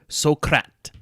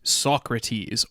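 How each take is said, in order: First: The name is said with European pronunciation. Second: The name is said with English pronunciation.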